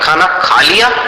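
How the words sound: The voice rises at the end like a question. It asks whether the food has been eaten. "अब प्रश्नात्मक"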